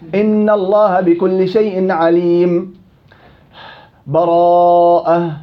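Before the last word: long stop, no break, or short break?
long stop. A full stop with breath comes before the last word. "قطع الجميع بدون بسملة"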